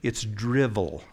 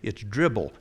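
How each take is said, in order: First: The middle consonant is a v sound. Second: The middle consonant is a b sound. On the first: The speaker calls it right. "It's drivel, okay?" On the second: The speaker calls it wrong. "people say, it's dribble. No, it's not dribble"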